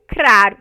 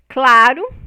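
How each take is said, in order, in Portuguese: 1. A segunda consoante é um R de batida. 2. A segunda consoante é um som de L. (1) "o nosso flap" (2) "O L"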